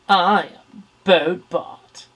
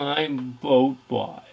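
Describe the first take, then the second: First: The voice sounds snotty and haughty. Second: The voice sounds sad and downcast.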